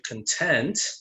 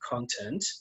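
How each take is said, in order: First: The stress is on the second syllable. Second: The stress is on the first syllable. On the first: "you can see that the stress on the second syllable" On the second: "stress on the first syllable is con content"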